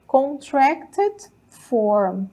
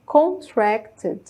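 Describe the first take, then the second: First: "Contracted form" said very slowly, every syllable spelled out; slow model pronunciation. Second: Said in the usual way. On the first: Shown as a demonstration. Teacher modelling the term for her students, slow and careful. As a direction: stretch out "Contracted" syllable by syllable for the class. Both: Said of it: "a gente chama de contracted".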